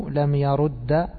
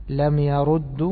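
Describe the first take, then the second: Both takes have the same delivery.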